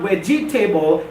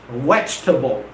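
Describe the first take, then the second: First: "vegetable" as vej-ee-TAY-bul, four syllables; mispronounced vegetable. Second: "vegetable" as VEJ-tuh-bul, dropping low; three-syllable vegetable. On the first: Teacher contrasting for students, "vegetable" wrongly as vej-ee-table. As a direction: say "vegetable" with a full "table" ending. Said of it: "it's not vegetable". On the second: Teacher correcting students, "vegetable" as vej-tuh-bul. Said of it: "it's vegetable". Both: Shown as a demonstration.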